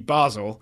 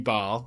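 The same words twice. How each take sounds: First: The name is pronounced in its German form. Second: The name is pronounced in its French form. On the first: "the town itself is German-speaking, which makes it F C Basel" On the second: "is the French form"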